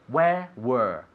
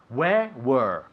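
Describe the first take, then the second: No difference in how they are said.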